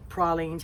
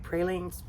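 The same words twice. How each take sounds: First: "pralines" said PRAH-leens, open A as in father; second take: "pralines" with the A of father; alternate pronunciation. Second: "pralines" said PRAY-leens, long A as in pray; first take: "pralines" with the A of pray; pronunciation variant. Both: Shown as a demonstration. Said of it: "however you wanna say it".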